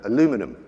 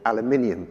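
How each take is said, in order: First: The word is said with four syllables. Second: The word is said with five syllables. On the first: The speaker calls it wrong. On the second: The speaker calls it right.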